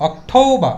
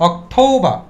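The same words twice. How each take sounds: No difference in how they are said.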